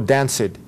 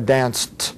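First: The word ends in a voiced sound. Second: The word ends in a voiceless t sound. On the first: The speaker calls it wrong. "ou não danced" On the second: The speaker calls it right. "a gente fala danced"

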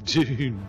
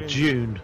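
First: It is pronounced in a non-British way. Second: It is pronounced the British way, like 'June'.

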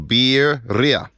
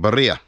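First: The first syllable sounds like 'beer'. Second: The first syllable does not sound like 'beer'. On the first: The speaker calls it right. "properly pronounced, you say the word beer and then ria" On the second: The speaker calls it wrong. "I was saying birria"

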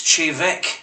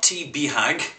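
First: The name begins with a 'ch' sound. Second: The name begins with a 't' sound. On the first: The speaker calls it right. "This whiskey is Chevek" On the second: The speaker calls it wrong. "Not T. Behag"

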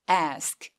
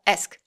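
First: The vowel is said long. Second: The vowel is said short. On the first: The speaker calls it right. "굉장히 긴 소리가 납니다" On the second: The speaker calls it wrong. "ask 안 되고"

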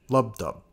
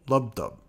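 No difference in how they are said.

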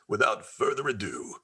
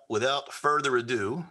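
First: It is said in a grand theatrical voice. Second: It is said in an ordinary speaking voice.

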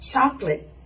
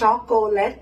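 First: The word is said with only two syllables. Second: The word is said with more than two syllables. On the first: The speaker calls it right. "สองพยางค์เท่านั้นนะคะ" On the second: The speaker calls it wrong. "ไม่ใช่"

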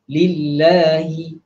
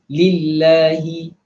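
No difference in how they are said.

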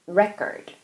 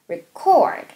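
First: The stress is on the first syllable. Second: The stress is on the second syllable. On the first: It is the noun meaning a record. "강세랑 발음 기호 다 바뀌어 있잖아요. 이번에는" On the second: It is the verb meaning to record. "K부터 이제 강하게 하시면 되니까요"

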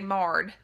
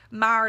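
First: The vowel is a flat 'ah', rhyming with 'starred'. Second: The vowel glides, rhyming with 'fired'.

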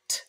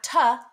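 First: The consonant is short with no added vowel. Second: An extra vowel sound follows the consonant. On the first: The speaker calls it right. "keep our speech sounds really short" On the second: The speaker calls it wrong. "Not ta"

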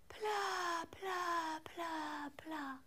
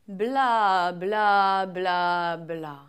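First: It is spoken with a breathy, airy voice. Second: It is spoken with a normal, clear voice.

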